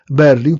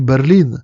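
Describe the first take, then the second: First: Berlin with the stress on the first syllable, BER-lin; Polish stress. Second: Berlin stressed on the last syllable, ber-LIN; German stress. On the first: Lecturer showing the Polish stress of Berlin, first syllable stressed. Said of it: "to tylko w języku polskim". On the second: Lecturer showing the German stress of Berlin, last syllable stressed. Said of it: "z akcentem na ostatniej sylabie". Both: Shown as a demonstration.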